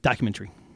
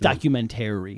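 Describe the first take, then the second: First: A middle vowel of the word is dropped. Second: Every vowel in the word is pronounced. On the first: This is the regional upstate New York pronunciation. The speaker calls it wrong. "we're like documentary" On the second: This is the standard pronunciation. The speaker calls it right. "I think it's documentary"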